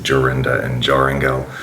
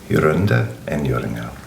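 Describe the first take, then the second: First: The J is said the English way. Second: The J is said the German way. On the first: The speaker calls it wrong. "I didn't understand how the European J is pronounced" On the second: The speaker calls it right. "pronouncing it in the correct German way"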